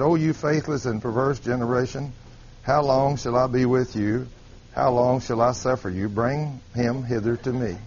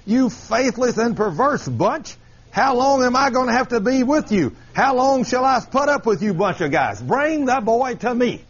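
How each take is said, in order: First: Low, subdued, unbothered scripture reading; mild church reading. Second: Higher, fed-up scolding; exasperated Jesus paraphrase. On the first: Shown as a demonstration. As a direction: read the rebuke with no bite at all. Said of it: "here's the way we read that". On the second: Acted. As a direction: scold them like a teacher out of patience. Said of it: "let me kind of paraphrase that for you".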